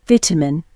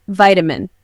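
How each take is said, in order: First: British accent "Vitamin" as VIT-a-min, short I; British accent: "Vitamin" starts like "vitriol"; British accent demo. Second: "Vitamin" American, VY-ta-min with long I; American accent: "Vitamin" starts like "vital"; American accent demo. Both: Shown as a demonstration. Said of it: "Pronunciation of particular words".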